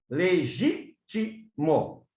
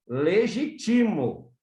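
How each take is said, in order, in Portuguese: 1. A sílaba tônica está na segunda sílaba. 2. A sílaba tônica está na terceira sílaba. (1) "sai do gi" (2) "vai ficar assim, ... passa para o ti"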